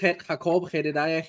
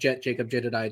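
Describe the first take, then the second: First: The names begin with an H sound. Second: The names begin with a J sound.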